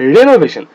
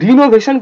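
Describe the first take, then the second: First: The first syllable is said as 'reh'. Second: The first syllable is said as 'ree'. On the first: The speaker calls it right. "আর ই এন ও রেনো হয়ে গেল" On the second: The speaker calls it wrong. "রিনোভেশন কেউ বলবে না"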